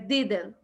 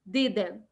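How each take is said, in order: First: The final T is dropped. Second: The same.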